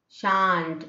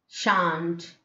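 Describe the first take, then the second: Both takes have the same delivery.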